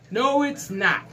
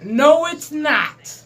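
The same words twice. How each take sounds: First: Said in the usual way. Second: Slow, louder, higher NO punched hard; emphatic denial. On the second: Acted. Vlogger rejecting millennials, slow emphatic denial. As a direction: slam the door on it, leaning on "No".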